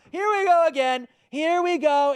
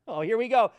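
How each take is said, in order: First: Mock sing-song. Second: Said in the usual way. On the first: Mocking the repetitive NPC talk.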